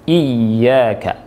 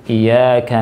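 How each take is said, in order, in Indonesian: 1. Bunyi y dibaca panjang dan ganda. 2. Bunyi y dibaca pendek dan tunggal. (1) "Ini artinya hanya kepadamu" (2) "kalau orang bacanya dengan iya"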